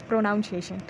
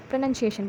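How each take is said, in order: First: "प्रोनाउंसिएशन" said pro-NOUN-ciation; wrong pronunciation. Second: "प्रोनाउंसिएशन" said pro-NUN-ciation; short NUN in the middle of "प्रोनाउंसिएशन"; correct pronunciation. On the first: Teacher warns pupils off this form, mispronounced pro-NOUN-ciation. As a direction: put the word noun inside "प्रोनाउंसिएशन". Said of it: "ना कि". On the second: Teacher tells pupils how it should be said, pronounced pro-NUN-ciation. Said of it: "बोलना चाहिए". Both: Shown as a demonstration.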